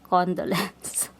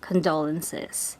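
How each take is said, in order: First: It has the Filipino vernacular pronunciation. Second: It has the standard English pronunciation. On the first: The speaker calls it wrong. "We say condolence. Which sounds horrible" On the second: The speaker calls it right. "We don't say uh, condolences"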